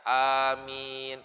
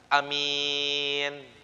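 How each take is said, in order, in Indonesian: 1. Vokal pertama dan kedua sama-sama panjang. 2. Vokal pertama pendek, vokal kedua panjang. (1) "A-nya panjang, mimnya panjang" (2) "A-nya pendek, mimnya panjang"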